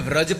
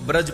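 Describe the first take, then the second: First: The word begins with a V sound. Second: The word begins with a B sound. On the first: "વ અને બ બંને વસ્તુ બોલી શકો" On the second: "વ અને બ બંને વસ્તુ બોલી શકો"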